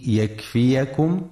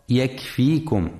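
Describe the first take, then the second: First: يكفيكم with fatha on ya, yakfiyakum; يكفيكم said yakfiyakum, open a after the y; correct reading. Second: يكفيكم with silent ya, yakfikum; يكفيكم misread yakfikum, ya left unvoweled; wrong reading demo. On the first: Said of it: "لفتح الياء وعدم سكونها". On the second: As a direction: show the error: يكفيكم as yakfikum. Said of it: "فلا يقرأ يكفيكم". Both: Shown as a demonstration.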